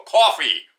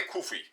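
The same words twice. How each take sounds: First: "coffee" punched loud with a rounded aw; New York "coffee". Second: "kufi" with an off, oo-like first vowel; attempted other pronunciation. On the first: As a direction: hit "coffee" hard, as if spelled cawfee. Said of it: "I say". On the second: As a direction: fumble "kufi" as a try at coffee. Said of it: "I don't know how to say". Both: Shown as a demonstration.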